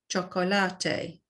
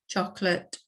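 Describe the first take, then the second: First: It is said with Spanish pronunciation. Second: It is said with English pronunciation. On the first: "in the Spanish pronunciation" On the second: "in English"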